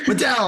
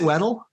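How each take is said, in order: First: The name is pronounced like Waddell. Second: The name is pronounced like Weddle. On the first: The speaker calls it right. "It's Waddell" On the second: The speaker calls it wrong. "I don't even know if I'm saying your last name right"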